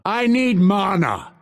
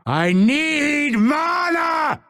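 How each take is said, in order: First: High, insistent plea; insist, short of a scream; urgent demand. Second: Very high, slow drawn-out yell; desperate scream. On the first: Fighter out of mana, urgent demand. Milder of two takes. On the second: Fighter out of mana, desperate scream. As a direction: scream it, stretching the words. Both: Acted.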